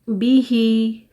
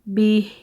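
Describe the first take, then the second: First: The word ends with a short i vowel. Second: The word ends with a bare h sound.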